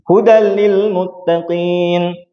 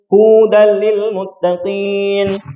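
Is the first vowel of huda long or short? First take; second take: short; long. First: The first vowel of huda is kept short. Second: The first vowel of huda is drawn out long. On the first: It means guidance for the pious. The speaker calls it right. "Ini ya" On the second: The speaker calls it wrong. "Orang Yahudi yang bertakwa"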